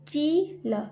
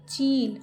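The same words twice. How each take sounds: First: चील slowly as ची, pause, ल; split syllables. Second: Said in the usual way. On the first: Shown as a demonstration. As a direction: sound out चील with long ee. (चील को तोड़कर, ची-ल) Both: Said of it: "जैसे मैं बोल रही हूँ".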